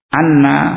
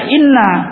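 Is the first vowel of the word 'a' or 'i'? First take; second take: a; i. First: The word begins with an 'a' vowel. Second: The word begins with an 'i' vowel. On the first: It is the main reading, meaning 'that'. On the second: It is another reading, implying an unstated 'he said'.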